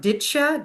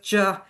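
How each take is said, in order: First: The words merge into two blended syllables. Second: The words shrink to a single short syllable. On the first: "it can become ditcha" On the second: "it can even be reduced more"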